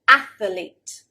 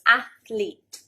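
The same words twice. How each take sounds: First: The word is said with three syllables. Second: The word is said with two syllables. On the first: The speaker calls it wrong. "adding another syllable" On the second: The speaker calls it right. "So there should be two syllables"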